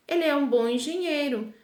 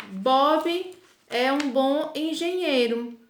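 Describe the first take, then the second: First: Said in the usual way. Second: Slow, careful dictation pace; teacher reading an example sentence slowly. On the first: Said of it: "eu posso ... dizer". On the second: Shown as a demonstration. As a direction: spell the example out slowly for the class. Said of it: "se eu disser".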